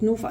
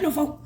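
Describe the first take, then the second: First: Said in the usual way. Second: Blurted-out, higher "Norfolk!"; frantically eager. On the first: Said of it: "Couldn't get the words out". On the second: Retold or imitated. Caller giving her area to the helpline, frantically eager "Norfolk!". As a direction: jump in with "Norfolk!" as if desperate to be rescued. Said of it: "Couldn't get the words out my mouth quick enough".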